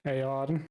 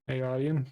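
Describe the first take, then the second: First: "Eärien" said as "Ay-ah-den", unsure with a rising end; a tentative first stab at "Eärien", voice lifting; "Eärien" fumbled as "ay-AH-den" in a casual English accent; first try at the name. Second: "Eärien" retried as "Ay-ah-ree-en", a little firmer; a second go at "Eärien" that fills in the missing r sound; "Eärien" redone as "ay-AR-ee-en", settling on the name; corrected name. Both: Shown as a demonstration. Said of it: "I can't do these voices and these fucking names with my accent".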